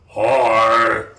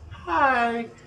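First: It is said in a loud, deep monster voice. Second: It is said in a small child's voice.

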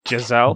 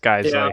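First: The name is said like Giselle. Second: The name is not said like Giselle. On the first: The speaker calls it wrong. "It looks like" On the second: The speaker calls it right. "It's Geissele"

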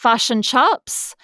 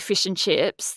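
First: The vowels in fish and chips sound like uh. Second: The vowels in fish and chips sound like ee. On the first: This is how the other country's accent is heard. "Hear it as fush and chups" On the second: This is how the speaker's own accent says it. "when we say fish and chips"

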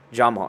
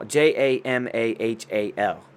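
First: The name is said with two syllables. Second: The name is said with three syllables. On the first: The speaker calls it wrong. "So it's not Jamal" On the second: The speaker calls it right. "It's Jamahal"

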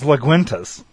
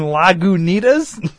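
First: The middle sounds are swapped, giving 'la-gwin-tas'. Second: The middle sounds are in order, giving 'la-gu-ni-tas'. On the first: The speaker calls it wrong. "What the fuck is Laguintas?" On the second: The speaker calls it right. "you mean Lagunitas?"

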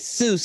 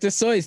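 First: The name is said with an Americanized pronunciation. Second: The name is said with its original pronunciation. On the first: This form was adopted to sound more American. "They made it Seuss because it was more American" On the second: This is the name's real form. "That's how you pronounce his name. That's his real"

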